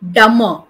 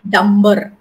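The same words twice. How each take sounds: First: No b sound is heard after the m. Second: A b sound is heard after the m. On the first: The speaker calls it right. "So B is silent" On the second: The speaker calls it wrong. "not dumber"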